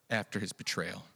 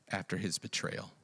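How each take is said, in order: Both takes have the same delivery.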